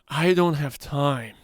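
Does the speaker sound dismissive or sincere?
sincere. It sounds sincere and genuine. The person truly lacks time. "the first one"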